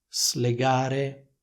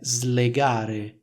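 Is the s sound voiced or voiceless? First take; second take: voiceless; voiced. First: The s is voiceless, separate from the l. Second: The s is voiced, like a z sound. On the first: The speaker calls it wrong. "pronunciano due suoni separati, cioè il suono S e poi il suono L" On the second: The speaker calls it right. "la pronuncia è slegare"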